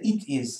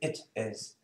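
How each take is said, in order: First: The vowel in it is long and tense. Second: The vowel in it is short and lax. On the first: The speaker calls it wrong. "You don't say it is, huh?" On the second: The speaker calls it right. "You say it is"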